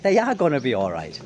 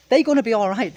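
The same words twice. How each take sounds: First: Said in the usual way. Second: Higher, louder, they're stressed. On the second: Shown as a demonstration. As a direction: lean hard on they're.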